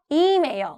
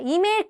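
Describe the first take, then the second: First: The stress is on the first syllable. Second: The stress is not on the first syllable. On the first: The speaker calls it right. "이에다가 강세를 주셔야 돼" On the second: The speaker calls it wrong. "이메일이 아니에요"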